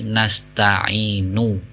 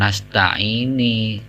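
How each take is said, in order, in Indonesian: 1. Kata ini diakhiri dengan vokal 'oo'. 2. Kata ini diakhiri dengan vokal 'ee'. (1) "tapi nasta'inu" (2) "sering orang itu salah membaca"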